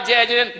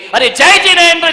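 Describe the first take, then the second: First: It sounds grudging, as if after a quarrel. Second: It sounds cheerful, warm and smiling.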